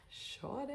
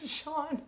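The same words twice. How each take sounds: First: The name Sean breathed unvoiced; whispered. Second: Said in the usual way. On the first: Shown as a demonstration. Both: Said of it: "Maybe someone's name is Sean".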